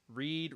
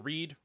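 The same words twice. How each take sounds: First: The vowel is long, like 'reed'. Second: The vowel is short, like 'red'. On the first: It is the present tense. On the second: It is the past tense.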